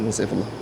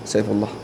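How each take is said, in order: Both takes have the same delivery.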